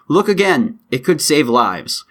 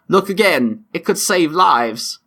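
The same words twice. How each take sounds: First: It is read in the speaker's own accent. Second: It is read in a put-on British accent.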